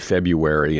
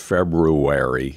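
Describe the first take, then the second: First: The word is said in a reduced, easier form. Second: The word is said in its full, effortful form. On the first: The speaker calls it wrong. "we say February instead of February because it takes more effort" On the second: The speaker calls it right. "it takes more effort"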